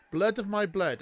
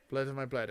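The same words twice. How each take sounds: First: Repeating the line Blood louder and with more weight; echoing the Dothraki line. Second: Said in the usual way. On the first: Shown as a demonstration. Echoing the queen's speech, mock solemn. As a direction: intone Blood of my blood like a vow. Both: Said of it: "I'm gonna try and translate".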